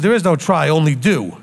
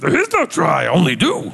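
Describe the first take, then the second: First: It is said in his normal voice. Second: It is said in a Yoda impression.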